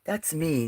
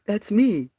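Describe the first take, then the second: First: Said in the usual way. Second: "That's me." whispered high and breathy. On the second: Real, not acted. Whispers about her photo.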